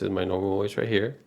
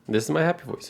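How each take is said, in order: First: It is said in his natural voice. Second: It is said in a put-on cheerful voice.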